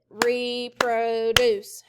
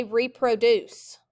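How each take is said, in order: First: "reproduce" very slowly in three even beats; syllable by syllable. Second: Said in the usual way. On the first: Shown as a demonstration. Teacher counting syllables with students, "reproduce" slow, beat by beat. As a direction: separate and stretch all three syllables of "reproduce". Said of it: "Clap it". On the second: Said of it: "everyone say reproduce".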